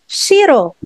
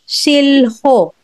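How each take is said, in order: First: The middle is a single r sound. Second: The middle has an l followed by an h. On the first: The speaker calls it right. "but it's shiro" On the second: The speaker calls it wrong. "is not shilho"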